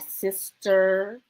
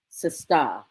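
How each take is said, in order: First: The word ends with an 'er' sound. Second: The word ends with an 'ah' sound. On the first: The speaker calls it wrong. "not sister" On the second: The speaker calls it right. "Let me say that with an A"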